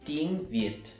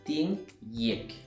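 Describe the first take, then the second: First: The second word begins with a V sound. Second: The second word begins with a Y sound. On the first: "I don't say tiếng Việt" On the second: "I would say tiếng Việt"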